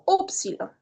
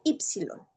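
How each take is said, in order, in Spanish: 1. La primera vocal suena como u. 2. La primera vocal suena como i. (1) "usualmente yo prefiero pronunciarla como upsilon" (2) "hay muchos expertos que van a pronunciar la upsilon como ypsilon"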